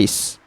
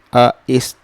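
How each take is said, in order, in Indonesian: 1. Vokalnya menyatu dalam satu suku kata. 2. Vokalnya terpisah menjadi dua suku kata. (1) "Dia satu bunyi je" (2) "Dia bukan A satu, is satu, A is tak"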